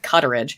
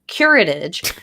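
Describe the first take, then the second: First: The second consonant is a T sound. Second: The second consonant is an R sound. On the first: The speaker calls it wrong. "I said cutterage" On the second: The speaker calls it right. "I couldn't pronounce it right"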